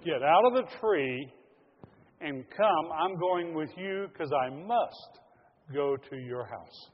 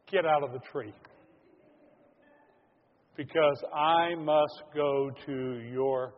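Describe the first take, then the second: First: Loud, slow, insistent call; Jesus insisting he comes down now, loud and slow; firm summons. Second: Loud, slow call up into a tree; Jesus calling up to Zacchaeus, loud and slow; commanding call. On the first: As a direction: summon him down with slow force. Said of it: "He said". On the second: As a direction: call him down firmly and slowly. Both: Acted.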